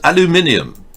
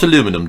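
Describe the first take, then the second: First: It is said the British way, five syllables. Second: It is said the American way, four syllables. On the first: The speaker calls it right. "The English pronunciation is more accurate" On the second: The speaker calls it wrong. "It is not aluminum"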